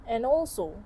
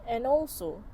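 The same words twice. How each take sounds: The two takes are said the same way.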